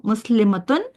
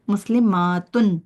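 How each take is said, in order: First: मुस्लिमतुन with a short a, no stretch; clipped singular मुस्लिमतुन. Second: मुस्लिमातुन slowly, long aa before tun; drawn-out plural मुस्लिमातुन. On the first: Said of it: "खींच लेती हैं". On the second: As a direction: stretch the aa in मुस्लिमातुन. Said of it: "आ की sound के साथ खींच". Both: Shown as a demonstration.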